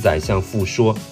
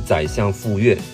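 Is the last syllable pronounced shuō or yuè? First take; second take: shuō; yuè. First: The last syllable is pronounced shuō. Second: The last syllable is pronounced yuè. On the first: The speaker calls it wrong. "不是宰相傅说" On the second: The speaker calls it right. "是宰相傅说"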